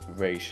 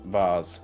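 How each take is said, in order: First: The name ends in a 'sh' sound. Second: The name ends in a 'z' sound. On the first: The speaker calls it right. "his name was pronounced Raish" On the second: The speaker calls it wrong. "not Vaz, a common mistake"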